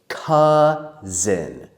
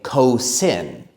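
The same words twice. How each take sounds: First: The first vowel sounds like 'uh'. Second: The first vowel sounds like 'oh'. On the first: The speaker calls it right. "It says uh, like up" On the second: The speaker calls it wrong. "Some people think that the O U says O, but it doesn't"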